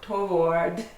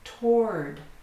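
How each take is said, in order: First: The word is said with two syllables. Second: The word is said with one syllable. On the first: The speaker calls it wrong. "I hear people say toward or toward, two syllables" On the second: The speaker calls it right. "This has one syllable, and you do not pronounce the W"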